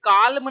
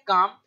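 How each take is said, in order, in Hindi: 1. शब्द L ध्वनि के साथ बोला जाता है। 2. शब्द L ध्वनि के बिना बोला जाता है। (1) "इसको काल्म ना पढ़ करके" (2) "एल है वो साइलेंट रहता है तो इसको पढ़ते हैं काम"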